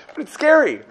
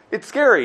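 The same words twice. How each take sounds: First: "scary" lifted high with a falling finish; a high, stressed "scary"; emphatic scary. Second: Said in the usual way. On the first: Shown as a demonstration. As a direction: push "scary" up high, then let it drop.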